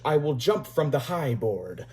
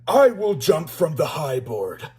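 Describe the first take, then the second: First: It is said in the narrator's normal voice. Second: It is said in a put-on voice for George.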